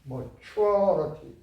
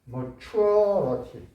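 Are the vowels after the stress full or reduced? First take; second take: reduced; reduced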